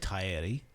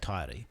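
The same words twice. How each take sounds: First: It is said with full Māori pronunciation. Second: It is said partly Māori, with a Māori r. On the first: "which is the correct pronunciation" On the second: "I do the correct inflection on the R"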